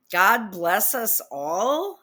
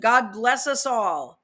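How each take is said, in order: First: Slow disbelieving question; incredulous. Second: Slow, earnest sign-off; mock solemn reading. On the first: Real, not acted. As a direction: repeat it slowly, can't believe it. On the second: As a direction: read the blessing slowly and gravely. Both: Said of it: "Who wrote this?".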